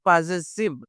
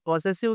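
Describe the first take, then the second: First: It is said with a z sound. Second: It is said with an s sound. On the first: The speaker calls it right. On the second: The speaker calls it wrong. "పొసెసివ్ కాదు"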